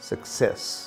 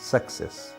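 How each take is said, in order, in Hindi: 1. बलाघात दूसरे अक्षर पर है। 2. बलाघात पहले अक्षर पर है। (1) "वे सेस पर दबाव देते हैं" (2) "इसका दबाव पड़ा स पर, शुरू वाले एस पर"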